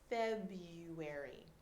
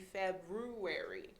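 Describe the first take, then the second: First: The first R is silent. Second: The first R is clearly pronounced. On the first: The speaker calls it right. "The R is totally silent" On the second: The speaker calls it wrong. "You see the spelling and you think should be February"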